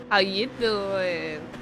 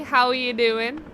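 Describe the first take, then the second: First: Slow drawn-out "How you doing" in a put-on voice; cheesy pickup line. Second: Said in the usual way. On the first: Shown as a demonstration. Caster joking with viewer Howie, slow flirty "How you doing". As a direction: draw the words out like a smooth flirt. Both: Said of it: "I think I'm so funny".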